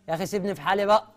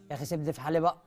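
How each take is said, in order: First: It is said loudly, almost shouting. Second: It is said at normal volume.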